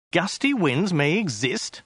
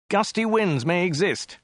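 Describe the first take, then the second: First: Slow, with EXIST rising at the end; incredulous question. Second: Slow, raised-pitch declaration; mild shout. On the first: Acted. Passenger doubting a road sign, slow rise on "exist". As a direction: query it slowly, lifting "exist" into a question. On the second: A narrator's reading. Passenger reading sign out to driver, slow emphatic statement. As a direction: call it out slowly, falling at the end. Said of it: "shouted Dirk".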